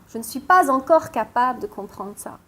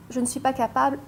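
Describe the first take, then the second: First: "pas encore" picked out within the sentence; emphasis landing on "pas encore"; stress on PAS ENCORE. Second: Said in the usual way. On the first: Shown as a demonstration. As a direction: lean on "pas encore", then carry on. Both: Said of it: "Mais le pas encore".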